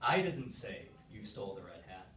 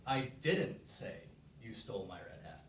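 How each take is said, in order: First: The word "I" carries the emphasis. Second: The word "didn't" carries the emphasis. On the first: "I'm going to put emphasis on one word" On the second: "Let's try the second word"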